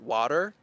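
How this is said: It ends with an audible R sound. "an American would say water"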